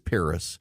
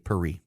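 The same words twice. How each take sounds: First: Paris is said the English way. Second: Paris is said the French way.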